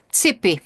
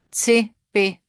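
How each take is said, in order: First: Said in the usual way. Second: "Tsipi" whispered, unvoiced and higher. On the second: Shown as a demonstration.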